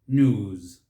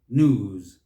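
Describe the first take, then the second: No difference in how they are said.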